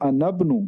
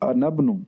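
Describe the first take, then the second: Both takes have the same delivery.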